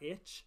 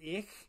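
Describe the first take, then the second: First: It ends with a hard 'tch' sound. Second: It ends with a soft hissing sound. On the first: The speaker calls it wrong. "and not itch" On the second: The speaker calls it right. "ICH is ich"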